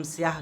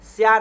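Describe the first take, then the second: First: स्याह with an audible final h; careful siyaah for स्याह; correct, sounded h. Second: स्याह cut to siyaa; louder, mistaken open ending on स्याह; wrong, dropped h. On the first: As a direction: breathe out the h closing स्याह. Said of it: "उसको हम स्याह कह रहे हैं". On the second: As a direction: leave off the final h of स्याह. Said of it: "स्याह नहीं कह रहे". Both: Shown as a demonstration.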